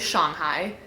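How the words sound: It is said with a Mandarin-like pronunciation. This is how it is actually pronounced. "that is actually how it is pronounced"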